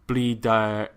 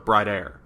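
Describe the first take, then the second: First: The name is said with a Japanese-style R. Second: The name is said with an American pronunciation. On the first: "it's that R" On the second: "that is so American the way I just said that"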